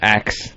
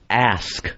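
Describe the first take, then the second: First: The word ends with a 'ks' sound. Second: The word ends with an 'sk' sound. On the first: The speaker calls it wrong. "axe is unacceptable" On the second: The speaker calls it right. "It's A S K"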